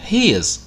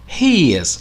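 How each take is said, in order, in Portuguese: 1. É dito como uma palavra curta e contraída. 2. É dito como duas palavras completas e separadas.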